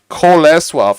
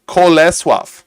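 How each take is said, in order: First: It is said with a Polish pronunciation. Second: It is said with a Polish pronunciation.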